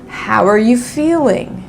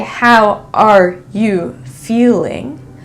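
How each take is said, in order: First: 'Are' is reduced and linked into the next word. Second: Each word, including 'are', is said fully and clearly. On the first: The speaker calls it right. "I'll say, ... this is not as clear" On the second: The speaker calls it wrong. "I won't say"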